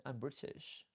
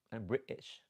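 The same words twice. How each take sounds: First: Said in the usual way. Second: Imitated British accent on "British". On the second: Shown as a demonstration. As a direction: put on British, punching "British". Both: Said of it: "I love the accent".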